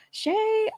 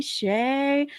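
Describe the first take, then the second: First: Lilting call to get her attention; high sing-song call. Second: Said in the usual way. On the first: Acted. Streamer calls to a chat regular, high and drawn out. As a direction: call the name up high, drawing it out. Calling a viewer by name.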